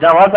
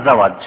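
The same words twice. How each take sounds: First: "জাওয়াজ" with j first, z last; j-first pronunciation. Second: "জাওয়াজ" with z first, j last; z-first pronunciation. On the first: Teacher repeating the contrast for listeners, j-first "জাওয়াজ". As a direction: stress "জাওয়াজ" as jawaaz. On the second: Teacher repeating the contrast for listeners, z-first "জাওয়াজ". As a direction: stress "জাওয়াজ" as zawaaj. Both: Shown as a demonstration. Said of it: "সমান পার্থক্য".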